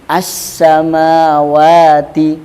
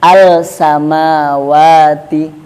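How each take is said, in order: First: The l merges into a doubled s sound. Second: The l is clearly pronounced before the s. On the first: The speaker calls it right. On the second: The speaker calls it wrong.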